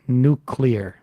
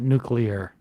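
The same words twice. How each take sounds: First: It is said as new-clear. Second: It is said as new-cue-lar. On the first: The speaker calls it right. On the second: The speaker calls it wrong. "not nuclear. ... Picked up that habit during George W. Bush"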